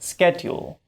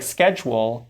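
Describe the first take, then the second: First: The middle has a d followed by y. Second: The middle has a merged j sound. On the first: This is an older pronunciation. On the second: This is the modern pronunciation.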